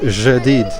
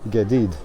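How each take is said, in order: First: It is said with a North African accent. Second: It is said with a Cairo accent. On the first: "if you want to pronounce it like here in North Africa" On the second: "if you want to pronounce it as in Lower Egypt, in Cairo"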